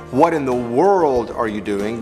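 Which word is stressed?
world. The stress falls on the word world. There are many different things one can do in the world. "we're kind of emphasizing the fact that in this big world of ours"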